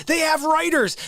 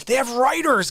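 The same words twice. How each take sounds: First: "They have writers" pitched up high, words hammered; indignant repeat. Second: Said in the usual way. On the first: Real, not acted. Telling viewers the SNL cast have writers, indignant. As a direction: repeat it higher and outraged. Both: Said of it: "I improvise".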